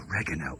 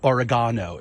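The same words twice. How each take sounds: First: The word is said in an American accent. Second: The word is said in a British accent.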